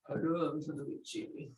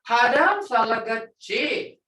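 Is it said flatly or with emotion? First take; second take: flatly; with emotion. First: It is said flatly, without feeling. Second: It is said with strong emotion.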